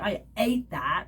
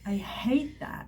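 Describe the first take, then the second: First: The h sound at the start is dropped. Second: The h sound at the start is pronounced. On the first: The speaker calls it wrong. "you don't say" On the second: The speaker calls it right. "So it's H, people"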